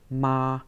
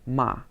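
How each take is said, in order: First: The pitch stays high and level. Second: The pitch falls sharply. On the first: "first tone" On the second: "the fourth tone"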